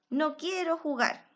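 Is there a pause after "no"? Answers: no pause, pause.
no pause. It is said straight through without a pause. The person refuses to play. "No hay ninguna coma"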